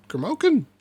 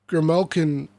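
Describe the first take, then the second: First: Higher-pitched, puzzled repeat; incredulous query. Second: Said in the usual way. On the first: Real, not acted. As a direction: question the odd word in disbelief. Puzzled by the odd name.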